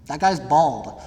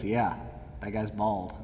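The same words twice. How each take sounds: First: Said in the usual way. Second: Low, much softer deadpan reply; deadpan teacher. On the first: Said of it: "And I go". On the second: Retold or imitated. Teacher calmly confirming the bald role, low deadpan. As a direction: drop it flat and quiet like a dry teacher. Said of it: "And he goes".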